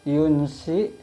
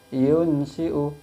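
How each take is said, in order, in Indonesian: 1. Hamzah menjadi vokal panjang saat berhenti. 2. Hamzah dibaca dengan vokal akhir.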